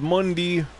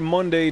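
First: The word ends with a 'dee' sound. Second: The word ends with a 'day' sound. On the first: "it was Monday. Not D-A-Y, but D-E-E" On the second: "He didn't say Monday"

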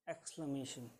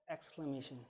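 The two takes are said the same way.

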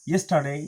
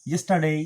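The two takes are said the same way.

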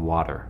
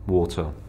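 First: The word is said in a non-British accent. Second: The word is said in a British accent. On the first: This is how people say it locally. "instead of water, like over here" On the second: This is the speaker's original pronunciation. "I still pronounce water"

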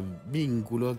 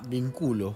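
First: The stress is on the first syllable. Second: The stress is on the second syllable. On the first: It is the noun meaning a link or bond. "Si no le pones tilde a vínculo" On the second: It is the verb form meaning I link. "queda vínculo"

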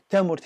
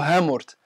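First: The word begins with a t sound. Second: The word begins with an h sound. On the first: This is the original form of the word. "تامورت هي الأساس" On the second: This is a neighbouring local pronunciation. "في الدوّارة اللي بجنبهم يقولوا هامورت"

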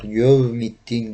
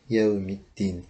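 First: The first vowel sounds rounded, like o or ö. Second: The first vowel is a plain unrounded e. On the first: The speaker calls it wrong. "Bunu şöyle okuyanlar da var. Yevmiddin gibi" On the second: The speaker calls it right. "Arapçada zaten o ve ö harfleri yok. Ye"

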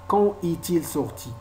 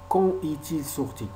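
No difference in how they are said.

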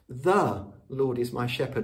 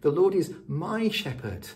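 First: The word Lord is stressed. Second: The word my is stressed.

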